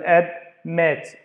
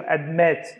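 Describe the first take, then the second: First: "admit" slowly broken into "ad" and "mit"; split into syllables. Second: "admit" with weight on the second syllable; stress on second syllable. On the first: Teacher breaking a word down for students, "admit" syllable by syllable. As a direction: sound out "admit" in two parts. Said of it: "دا نشوف". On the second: Teacher showing where stress falls, "admit" stressed on "mit". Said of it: "على ال second syllable". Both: Shown as a demonstration.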